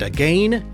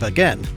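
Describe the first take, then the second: First: It is said the Canadian way, rhyming with pain. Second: It is said the non-Canadian way, not rhyming with pain. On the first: "You guys taught me how to say" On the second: "instead of"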